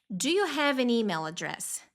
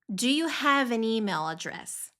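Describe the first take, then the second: The two takes are said the same way.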